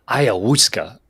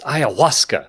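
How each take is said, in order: First: Ayahuasca said "aya-HOOS-ka"; mispronounced ayahuasca. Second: Ayahuasca said "aya-WAS-ka"; corrected ayahuasca. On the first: Producer corrects the hosts, quoting ayahuasca as "aya-HOOS-ka". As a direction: give ayahuasca an "oo" sound in place of "wa". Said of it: "You pronounce the drug Aaron Rodgers takes as". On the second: Producer corrects the hosts, saying ayahuasca as "aya-WAS-ka". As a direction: pronounce ayahuasca with a clear "wa" sound. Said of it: "It's not ayahuasca". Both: Shown as a demonstration.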